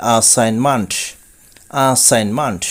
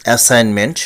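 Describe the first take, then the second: First: অ্যাসাইনমেন্ট as "aa-sain-mant", falling; correct pronunciation. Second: অ্যাসাইনমেন্ট with "ment", rising; common mispronunciation. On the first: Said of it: "কিন্তু এর সঠিক উচ্চারণ হবে". (অ্যাসাইনমেন্ট-এর সঠিক উচ্চারণ "আসাইনমান্ট") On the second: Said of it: "শুনে থাকি". (অ্যাসাইনমেন্ট-এর প্রচলিত উচ্চারণ "এসাইনমেন্ট") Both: Shown as a demonstration.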